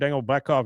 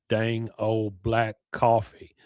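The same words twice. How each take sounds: First: It is said fast, in Boomhauer's voice. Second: It is said slowly, in Boomhauer's voice.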